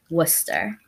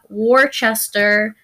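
First: It is said with the local pronunciation. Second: It is said with a non-local pronunciation. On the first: The speaker calls it right. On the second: The speaker calls it wrong.

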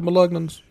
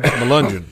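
First: It sounds like 'malugnan', with a hard g. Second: It sounds like 'melungeon', with a soft g. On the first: The speaker calls it wrong. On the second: The speaker calls it right.

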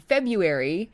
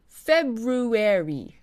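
First: The syllables are squished together quickly. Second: Each syllable is pronounced separately and clearly. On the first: "squishing the sounds together and saying February, like I would" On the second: "in RP you would pronounce each syllable very clearly"

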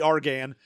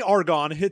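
First: The name sounds unlike the element argon. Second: The name sounds like the element argon. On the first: The speaker calls it right. "that should be Argan" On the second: The speaker calls it wrong. "they say Argon"

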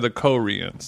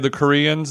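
First: Koreans is said with an old-fashioned pronunciation. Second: Koreans is said with the ordinary modern pronunciation. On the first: This is how older war veterans say it. "they say the Koreans" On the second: This is how most people say it today. "they don't say the Koreans"

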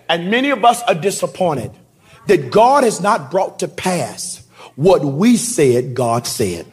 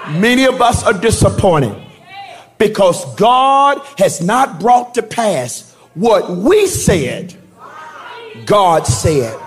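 First: It is said at normal speed. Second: It is said more slowly.

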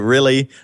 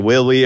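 First: The word begins with a clear R sound. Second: The word begins with a W-like sound. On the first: "I don't say really" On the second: "I say willie or something like that"

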